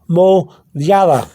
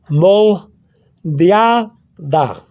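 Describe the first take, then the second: First: It is said quickly as one word. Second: It is said slowly, split into parts.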